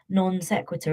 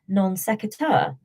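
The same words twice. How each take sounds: First: The stress falls in the familiar place. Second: The stress falls in an unfamiliar place. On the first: This is how the speaker always said it. "I heard someone on a podcast pronounce non sequitur as" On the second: This is how someone on a podcast said it. "the stress was all funny and completely different to the way I thought you pronounce it"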